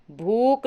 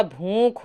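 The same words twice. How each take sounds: First: भूख ending in plain k, "bhook"; no breath on the k of भूख; wrong form. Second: भूख ending in aspirated kh; correct form. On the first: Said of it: "भूख नहीं होता". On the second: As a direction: slowly breathe out the kh of भूख. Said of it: "भूख होता है". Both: Shown as a demonstration.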